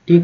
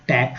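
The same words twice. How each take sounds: First: टेक with the closed e of "made"; right vowel. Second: टैक with the open vowel of "mat", wrong for take. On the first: Teacher giving the right reading of take, closed e. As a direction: say टेक with a clean long e. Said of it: "टेक हो रहा है". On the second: Teacher showing the wrong reading of take, open vowel. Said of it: "टैक तो नहीं हो रहा है". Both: Shown as a demonstration.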